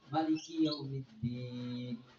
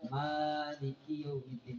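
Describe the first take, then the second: First: The vowel after the m is short. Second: The vowel after the m is long. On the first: "mimnya itu dibaca pendek, tidak dibaca panjang" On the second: "jadi dia nggak baca"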